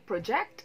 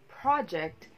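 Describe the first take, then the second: First: The stress is on the second syllable. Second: The stress is on the first syllable. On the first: It is used as a verb. "project is a verb" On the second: It is used as a noun. "project is a noun"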